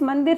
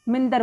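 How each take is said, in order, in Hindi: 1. पहले अक्षर में स्वर 'a' है। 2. पहले अक्षर में स्वर 'i' है। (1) "ये मंदिर एक शब्द होता है" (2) "वो मिंदर बोलते हैं"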